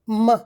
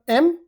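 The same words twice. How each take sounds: First: It is a bare hum through the nose, no vowel. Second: It is said as the letter name, with a vowel. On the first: "as a sound it is pronounced as M" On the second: "normally we pronounce it as the letter M"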